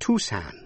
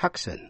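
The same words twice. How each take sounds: First: Tucson said TOO-sahn, c silent. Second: Tucson said TUCK-sahn with the c sounded; Tucson wrong c. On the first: Teacher models Tucson without c. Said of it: "đọc là Tucson". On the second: Teacher shows wrong Tucson with c. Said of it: "chứ không đọc là Tucson". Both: Shown as a demonstration.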